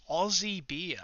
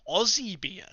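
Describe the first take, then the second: First: "Aussie beer." said with a falling tune, settling in to think; musing statement. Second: "Aussie beer?" repeated with a rising, questioning tune; echoed question. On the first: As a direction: repeat "Aussie beer." to yourself, letting it drop at the end. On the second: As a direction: toss back "Aussie beer?" as a puzzled echo, rising at the end. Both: Shown as a demonstration. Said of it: "what's your favourite Aussie beer".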